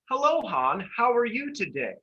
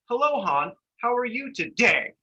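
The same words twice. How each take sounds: First: The sentence ends softly without a bump. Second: The sentence ends with a loud bump. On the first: The speaker calls it right. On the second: The speaker calls it wrong.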